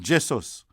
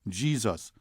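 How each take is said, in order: First: The first vowel is a short E sound. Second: The first vowel is a long E sound. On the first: This is the pronunciation Rastas prefer. "short E as in met" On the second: This is the traditional pronunciation. "long E as in C"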